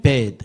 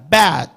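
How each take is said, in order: First: Bad said as "bed", with a closer "e"; teacher modelling the second word bad as bed; narrower vowel. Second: Bad with a wide open, drawn-out "ae"; teacher modelling a long, open Bad; wide-mouthed vowel. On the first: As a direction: less open mouth, bad sounding like bed. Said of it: "뒤에는". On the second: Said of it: "입을 크게 해야 합니다". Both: Shown as a demonstration.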